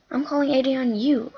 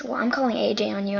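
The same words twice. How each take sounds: First: Echoed back a bit louder and higher; mocking echo. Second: Put-on fast, tattling threat from the girl; quick threat. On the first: She echoes the girl's threat back, mocking and louder. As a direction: throw her words right back at her. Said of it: "I said". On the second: Girl threatens to report her, quick tattling. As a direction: rattle it off like a tattletale. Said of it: "And she goes".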